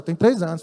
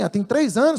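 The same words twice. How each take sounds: First: "três anos" set lower, falling like an answer; retold answer, dropping on "anos"; confirming statement. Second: "três anos" lifted in a rising question; retold question, rising on "anos"; questioning echo. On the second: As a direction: query "três anos" with the pitch going up at the end. Retold reaction to pastor's claim.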